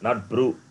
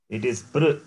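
First: The vowel after p is a u sound. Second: The vowel after p is a vocalic r. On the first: The speaker calls it wrong. "not ukara" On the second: The speaker calls it right. "pakara and rikara"

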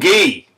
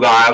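First: The word is said with a hard g and long ee. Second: The word is said like the English word guy. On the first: The speaker calls it right. "thanks for the clarification" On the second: The speaker calls it wrong. "that's how I was pronouncing it"

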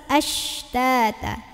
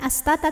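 First: A hushing 'sh' sound comes before the t. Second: A plain 's' sound comes before the t. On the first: The speaker calls it right. "tapi ashtata" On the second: The speaker calls it wrong. "bukan astata"

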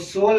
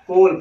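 First: The word begins with an s sound. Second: The word begins with a k sound. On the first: The speaker calls it wrong. "हम उसको सोल नहीं पढ़ेंगे" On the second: The speaker calls it right. "बल्कि कोल पढ़ेंगे"

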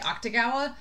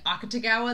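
First: The u vowel is clipped short. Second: The u vowel is fully pronounced. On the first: The speaker calls it wrong. "they clip that U" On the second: The speaker calls it right. "Instead of saying Akatagawa"

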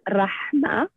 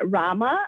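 First: The H in the middle is clearly pronounced. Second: The H in the middle is not heard. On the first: The speaker calls it right. "it's a much pronounced letter" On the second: The speaker calls it wrong. "where the H is not visible"

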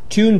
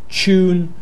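First: It starts with t followed by a y sound. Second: It starts with a ch sound.

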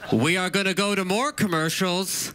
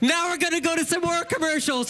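First: The tone is gloomy, as if announcing bad news. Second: The tone is cheerful, as if announcing good news. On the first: Going to commercials is a bad thing. The speaker calls it wrong. "Don't say it like that, like it's a bad thing" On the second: Going to commercials is nothing bad. The speaker calls it right. "let me start over"

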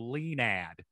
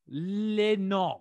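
First: The name is said with an American sound. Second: The name is said with a French sound. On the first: "I was either gonna go really French or I was gonna go Leinad" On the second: "you made it French?"

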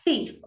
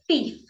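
First: The first sound is the standard th sound. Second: The first sound is replaced by another sound. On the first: This is the intended pronunciation. The speaker calls it right. "instead of thief" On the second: This is how a young child says it. The speaker calls it wrong. "they'll say thief instead of thief"

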